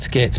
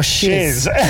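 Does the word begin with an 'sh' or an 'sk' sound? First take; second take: sk; sh. First: The word begins with an sk sound. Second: The word begins with an sh sound. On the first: The speaker calls it right. "It's supposed to be skits" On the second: The speaker calls it wrong. "everyone just says, oh, shiz"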